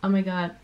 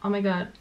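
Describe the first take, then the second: First: The melody stays flat, French-style. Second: The same.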